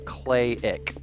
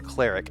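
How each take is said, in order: First: The word is said without any R sound. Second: The word is said with an R sound. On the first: The speaker calls it right. "there is no R sound" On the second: The speaker calls it wrong. "You're trying to say it like cleric"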